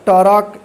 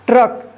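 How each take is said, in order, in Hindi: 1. एक छोटा स्वर ट और र को अलग करता है। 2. ट और र बिना किसी स्वर के जुड़ते हैं। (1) "ये गलत हो जाएगा" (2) "सही ए होगा ट्रक"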